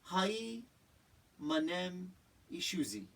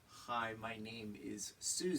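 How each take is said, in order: First: It is mumbled as if with a full mouth. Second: It is said clearly with normal articulation.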